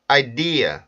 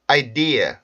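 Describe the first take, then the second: The two takes are said the same way.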